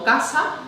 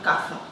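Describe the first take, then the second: First: The middle consonant is an 's' sound. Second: The middle consonant is a 'th' sound. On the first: "palabras como casa" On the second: "pues dirían caza"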